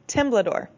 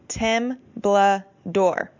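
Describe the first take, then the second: First: The syllables run together as one word. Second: Each syllable is said separately with breaks.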